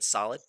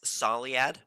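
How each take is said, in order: First: The name is said like the word solid. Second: The name is said unlike the word solid. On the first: The speaker calls it wrong. "I was saying solid" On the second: The speaker calls it right. "I've been told to pronounce it like this"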